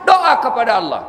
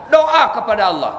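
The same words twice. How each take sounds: The two takes are said the same way.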